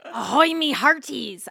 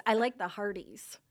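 First: Loud pirate greeting demo. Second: Said in the usual way. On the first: Shown as a demonstration. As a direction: call it out like a pirate.

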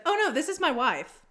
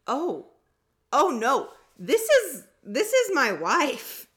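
First: Quicker, higher, lightly imitated polite correction; nice correction. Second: Loud, high, hammed-up protest; exaggerated indignant correction. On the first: Imitating wife correcting a stranger in line, nicely. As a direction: imitate her putting him right without the drama. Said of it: "like that". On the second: Wife corrects a stranger in line, hammed-up indignation. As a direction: overdramatize it, stretching the last words out loud. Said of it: "She didn't say it like that".

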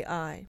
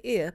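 First: "I" said as the long vowel in "eye"; "I" with its full name sound "aye". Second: "I" said as the short vowel in "it"; "I" with a clipped, short "ih" sound. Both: Shown as a demonstration. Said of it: "usually say I, but may say I".

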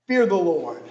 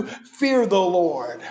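First: Said in the usual way. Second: Fear the Lord stretched slowly, fear weighted; slow emphatic. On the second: Shown as a demonstration. Preacher stresses the second duty to the congregation, slow. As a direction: drag it out for weight. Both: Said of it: "Responsibility number two".

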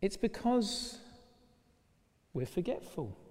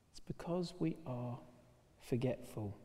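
First: Said in the usual way. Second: Repeated much softer, almost to himself. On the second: Shown as a demonstration. Preacher repeating his point to the congregation, hushed. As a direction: let the point sink in quietly.

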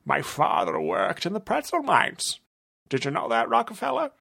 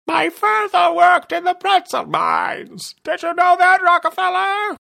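First: Higher villain voice, plain volume. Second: Squealing very high and much louder, slow; villain tests a new pitch and volume on the detective. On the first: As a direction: say it as the villain normally would. First take, normal villain. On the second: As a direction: shout it in a falsetto so he hears. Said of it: "experimenting with pitches and volumes". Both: Acted.

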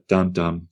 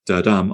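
First: "dum-dum" with the weight on the first "dum"; stressed first "dum", lighter second "dum"; stress on first syllable. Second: "da-dum" with the weight on "dum"; light "da", firmly stressed "dum"; stress on second syllable. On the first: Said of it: "stressed, unstressed". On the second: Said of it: "unstressed and a stressed". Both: Shown as a demonstration.

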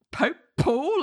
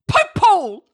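First: High puzzled question, a bit higher; mild confused echo; baffled echo. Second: High, loud barked objection; spring up and shout the objection; mock courtroom shout. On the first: Retold or imitated. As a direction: repeat it as if it makes no sense. Everyone baffled by the objection.

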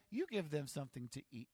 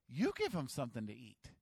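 First: Said in the usual way. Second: "You give them something to eat." with a lower, firmer voice and weight on "give"; firm command. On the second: Shown as a demonstration. Jesus firmly telling the disciples to feed them. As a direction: lay it down as a firm order. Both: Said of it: "I hope he said it like this".

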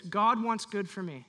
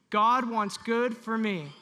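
First: Said in the usual way. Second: Louder, slow, meaning every word; with conviction. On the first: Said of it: "Say this". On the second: Shown as a demonstration. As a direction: declare it like you mean it. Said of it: "Say it like you mean it".

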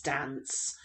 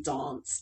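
First: "dance" with short "a", as in "cat". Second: "Dance" with long "ah", as in "father". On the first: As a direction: say "dance" softly with a short front A. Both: Shown as a demonstration. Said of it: "long A or a short A".

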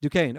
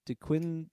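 First: "Duquesne" said "doo-KANE", with a silent s; corrected pronunciation. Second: "DeQuin-" tried haltingly with a "kwin" sound, left unfinished; unsure mispronunciation. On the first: Podcaster repeating co-host's correction, "Duquesne" pronounced doo-KANE. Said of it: "that's how you pronounce it". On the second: Podcaster unsure of a Pittsburgh team's name, hesitant mispronunciation of "DeQuin-". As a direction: stumble on "DeQuin-", saying the qu as "kw". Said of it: "I don't know how to pronounce it". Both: Real, not acted.

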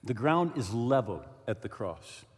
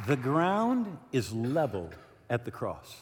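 First: Solemn, quieter. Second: Solemn slow. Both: Acted. Solemn repeated key line.

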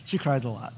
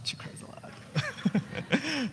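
First: Said in the usual way. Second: Slow, breathy stage whisper of She cries a lot. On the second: Shown as a demonstration. Pastor teasing about his wife to the church, slow whisper. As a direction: lean in and whisper it like a secret.

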